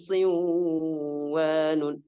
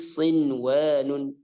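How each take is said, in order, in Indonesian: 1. n sebelum w dilebur, tidak terdengar. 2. n sebelum w diucapkan dengan jelas. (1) "Bukan juga siwanun, siwanun. Bukan" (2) "Tapi sinwanun izhar mutlaq. Jadi dibaca dengan jelas"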